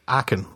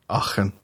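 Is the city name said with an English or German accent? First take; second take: English; German. First: The name is said with an English accent. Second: The name is said with a German accent. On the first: The speaker calls it wrong. "I'm laughing at your German pronunciation" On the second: The speaker calls it right. "Oh, there you go. Okay. You can do it"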